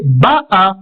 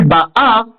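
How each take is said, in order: First: Ba'a with the weight on Ba; BA'a, first syllable accented; stress on first syllable. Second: Ba'a with the weight on the last a; Ba'A, accent at the end; stress on final syllable. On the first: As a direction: hit the opening syllable of Ba'a. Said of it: "le Ba qui est accentué". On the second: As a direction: lean on the second syllable of Ba'a. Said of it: "et non plus Ba'a". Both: Shown as a demonstration.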